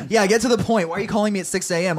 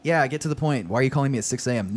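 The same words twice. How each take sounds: First: Higher, quick annoyed snark; snarky. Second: Quick, understated irritation; mild snark. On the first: Austin to Otto calling at six A M, snarky. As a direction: snap it impatiently, pitched up and fast. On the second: Austin answering Otto's early call, mildly snarky. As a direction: hurry the caller along with a touch of snark. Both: A narrator's reading. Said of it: "Austin snarked".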